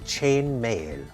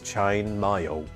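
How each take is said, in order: First: The vowel in 'mail' sounds plain, not like 'mayo'. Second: The vowel in 'mail' sounds like 'mayo'. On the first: This is how other dialects say it. "as opposed to, say, for example" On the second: This is the speaker's own regional dialect. "as if I'm saying mayo, like mayonnaise"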